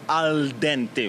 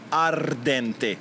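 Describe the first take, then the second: First: It is said in standard Italian with an l. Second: It is said in a Roman accent with an r.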